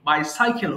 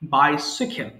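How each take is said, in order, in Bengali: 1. মাঝের অক্ষরটি 'sigh' এর মতো শোনাচ্ছে। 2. মাঝের অক্ষরটি 'sih' এর মতো শোনাচ্ছে। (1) "যদি সাই থাকতো তাহলে এই জিনিসটা আবার রিপিট হতো" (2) "দেখেন এর মধ্যে কোনো সাই নেই"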